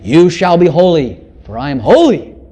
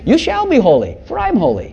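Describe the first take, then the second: First: It is said as a stern, demanding command. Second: It is said as a warm, reassuring promise. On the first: It is a law meant to scare the listener. The speaker calls it wrong. "It isn't saying it like that" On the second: Holiness will be given to the listener as a gift. The speaker calls it right. "It's saying, ... In other words, I'm going to give my holiness to you"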